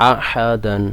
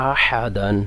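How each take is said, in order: No difference in how they are said.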